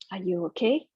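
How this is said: It is said in a calm, soothing tone.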